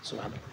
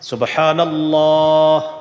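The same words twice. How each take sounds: First: It is rushed and mumbled very quickly. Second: It is said slowly with every sound clear. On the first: The repetitions are finished hastily without care. The speaker calls it wrong. "মানে উনি চৌত্রিশ বার তেত্রিশ বার কমপ্লিট হয়ে গেছে" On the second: The repetitions are done carefully and correctly. The speaker calls it right. "আপনার হয়েছে মাত্র তিনবার"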